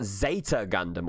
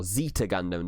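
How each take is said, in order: First: "Zeta" with an AY vowel in the first syllable; first pronunciation of Zeta. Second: "Zeta" with a long EE in the first syllable; alternative pronunciation of Zeta. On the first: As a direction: say "Zeta" as ZAY-tuh. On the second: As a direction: say "Zeta" as ZEE-tuh. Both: Shown as a demonstration. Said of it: "depending on how you pronounce it".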